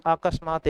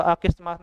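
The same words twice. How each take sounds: First: अकस्मात with a short a in the middle, a-kas-maat; proper अकस्मात, middle vowel a; correct form demo. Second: अकस्मात misread with an i, as aa-kis-maat; faulty अकस्मात, middle vowel turned to i; wrong form demo. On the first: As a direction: say अकस्मात as akasmaat, no i. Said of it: "यही सही होगा". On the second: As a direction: slip an i into अकस्मात: aakismaat. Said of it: "नहीं". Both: Shown as a demonstration.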